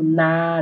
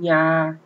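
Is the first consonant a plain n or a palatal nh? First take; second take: plain n; palatal nh. First: It begins with a plain n sound. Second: It begins with a palatal nh sound. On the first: The speaker calls it wrong. "Não é pronunciado na" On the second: The speaker calls it right. "nhó mesmo, nha"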